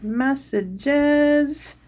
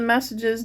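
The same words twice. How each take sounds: First: It is said in a put-on comedic imitation voice. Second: It is said in her own ordinary speaking voice.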